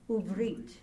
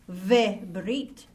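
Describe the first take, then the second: First: The word begins with an 'oo' sound. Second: The word begins with a 've' sound. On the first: The speaker calls it right. "you say U-Brit" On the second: The speaker calls it wrong. "you didn't say Ve-Brit"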